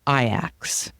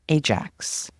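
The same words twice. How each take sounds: First: It is said the way the Dutch club says it. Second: It is said like the North American cleaner's name. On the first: "But they say Ajax" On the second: "like the popular North American household cleaner"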